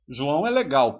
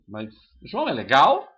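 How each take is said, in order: First: The voice falls at the end. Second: The voice rises at the end. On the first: It is a statement. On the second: It is a question. "uma mudança de intonation"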